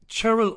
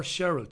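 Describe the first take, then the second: First: Cheryl starting as in chair; hard CH at the start of Cheryl. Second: Cheryl starting as in share; soft SH at the start of Cheryl. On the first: Checking a viewer's name, Cheryl with a CH. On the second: Checking a viewer's name, Cheryl with an SH. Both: Real, not acted. Offers two readings of a name.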